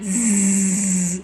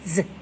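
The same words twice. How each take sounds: First: The z sound is long and drawn out. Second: The z sound is short and clipped. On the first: The speaker calls it wrong. "making a big long Z sound" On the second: The speaker calls it right. "It's short"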